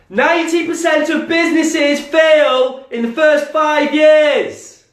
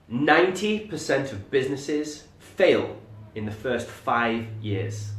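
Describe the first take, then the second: First: It is said loudly, almost shouted. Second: It is said firmly with certainty, not loud.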